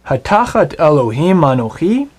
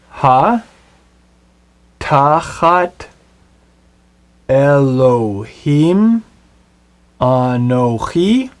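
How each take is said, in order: First: Said in the usual way. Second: Each Hebrew word read slowly, apart, with pauses; slow spelled-out Hebrew reading. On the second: Shown as a demonstration. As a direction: read Ha tachat Elohim anochi word by word, slowly. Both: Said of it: "Let's read the Hebrew of his question together".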